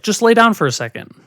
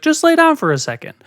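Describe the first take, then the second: First: Higher-pitched imitation of mom coaxing; mother's coaxing request. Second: Much higher, pressing imitation of mom; mother insisting. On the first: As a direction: imitate a mother casually coaxing her child. Mother coaxing child, first take. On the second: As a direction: mimic a mother brushing off a question and insisting. Mother insisting after being questioned.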